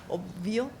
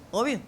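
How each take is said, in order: First: The b before the v is fully pronounced. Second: The b before the v is dropped. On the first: The speaker calls it wrong. "nunca vamos a decir obvio" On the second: The speaker calls it right. "no, obvio"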